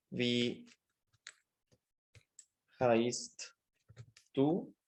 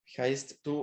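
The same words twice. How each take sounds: First: Dicting slowly with long pauses; palabra por palabra. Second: Said in the usual way. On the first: Shown as a demonstration. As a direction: say each word separately, as if writing it out. Escribe la pregunta palabra por palabra. (palabra por palabra, con pausas largas)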